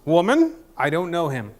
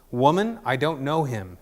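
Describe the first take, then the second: First: Hammed-up indignant denial, punched opening word; seventies Peter. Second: Said in the usual way. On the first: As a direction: exclaim the first word high and loud, then settle. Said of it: "it's just like the seventies Peter".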